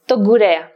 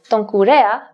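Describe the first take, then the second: First: The n is dropped before a g sound. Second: The n is kept before a k sound.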